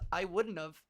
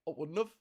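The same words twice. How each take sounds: First: It is said in the speaker's plain accent. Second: It is said in a Liverpool accent.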